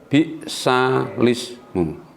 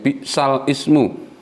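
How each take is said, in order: First: The lam runs directly into the following vowel. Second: The two words are said with a separate vowel onset. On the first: The speaker calls it right. "dipindah menjadi bi'salismu" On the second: The speaker calls it wrong. "bukan bi'sal ismu"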